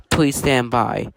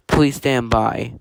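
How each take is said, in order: Both takes have the same delivery.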